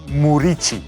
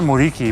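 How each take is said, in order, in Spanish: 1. La última sílaba empieza con sonido ch. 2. La última sílaba empieza con sonido k. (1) "mi apellido es [name] ... El Q que tengo en mi apellido, en mi idioma, es Ch" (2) "la gente me llama Muriqui, porque es más fácil"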